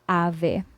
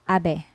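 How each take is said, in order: First: The middle consonant is a V sound. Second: The middle consonant is a soft B sound. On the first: The speaker calls it wrong. "We don't pronounce this as" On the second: The speaker calls it right. "We pronounce this as"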